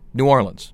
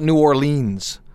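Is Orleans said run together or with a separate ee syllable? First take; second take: run together; separate ee. First: Orleans is run together without an 'ee'. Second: Orleans has a separate 'ee' syllable. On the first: The speaker calls it right. "Just run it all together" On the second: The speaker calls it wrong. "stop pronouncing it E"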